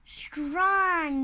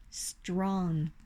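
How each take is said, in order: First: "Strong" with a clear open o and no nasal; model pronunciation. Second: "strong" with a nasal o again; mispronounced again. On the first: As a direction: say "Strong" slowly as the right model. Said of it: "Not strong. Strong". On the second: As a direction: repeat "strong" the learner's wrong way. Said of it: "No, not strong". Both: Shown as a demonstration.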